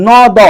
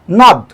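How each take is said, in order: First: ন দ as two separate sounds, "naw, daw"; split in two. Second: Said in the usual way. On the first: Shown as a demonstration. Teacher shows how it is not said, ন দ split in two. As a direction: break ন দ apart, a vowel on each letter. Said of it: "এভাবে বলছি না". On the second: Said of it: "একবারে উচ্চারণ করে ফেলছি".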